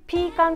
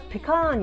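First: It starts with 'pee', second syllable short. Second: It starts with 'peh', second syllable drawn out. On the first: "ピーカンっていうナッツなんですけれども" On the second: "こっちの人たちは発音がペカーンになっちゃう"

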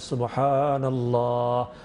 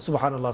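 First: It is said slowly and carefully. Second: It is said fast and carelessly.

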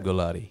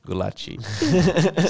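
First: The name is said with a neutral accent. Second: The name is said with a Brazilian accent. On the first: The speaker calls it right. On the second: The speaker calls it wrong.

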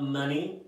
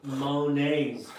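First: The name sounds like the word money. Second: The name ends with a 'nay' sound. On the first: The speaker calls it wrong. "It's not Money Garden" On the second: The speaker calls it right. "It's Monet's Garden. Like the painter"

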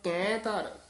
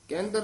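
First: The vowel is drawn out with a long voice. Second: The words are run together with a short vowel. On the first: The speaker calls it right. "ਲੰਮੀ ਲੰਮੀ ਜੀ ਆਵਾਜ਼ ਨਾਲ ਕਰਨਾ ਹੈ" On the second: The speaker calls it wrong. "ਕੇਂਦਰ ਨਹੀਂ ਕਹਿਣਾ"

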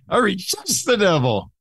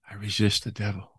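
First: It is said forcefully, with strong energy. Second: It is said mildly, without much force. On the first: The speaker calls it right. "It puts some teeth into it because I'm fighting" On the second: The speaker calls it wrong. "I don't say I resist the devil"

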